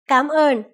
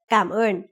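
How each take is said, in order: First: The first syllable has a rising tone. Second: The first syllable does not have a rising tone. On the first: It is a casual form used only in speech. "The word cảm ơn is pronounced with a rising tone" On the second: It is the standard form for writing and speech. "more semantically correct and officially used"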